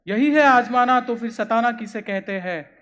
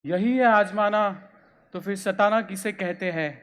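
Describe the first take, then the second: First: Louder opening, falling away after; forceful poetic re-reading; declaimed verse. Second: Said in the usual way. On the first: Acted. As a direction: hit the first phrase hard, then ease down. Verse repeated with more force.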